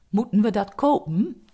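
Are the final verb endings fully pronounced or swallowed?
swallowed. The final e of the verbs is swallowed.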